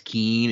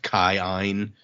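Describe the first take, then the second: First: The name is said as one syllable. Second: The name is said as two syllables. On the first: The speaker calls it wrong. "when we read like K I I N as Keen" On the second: The speaker calls it right. "it's actually like pronounced Kai-Ein"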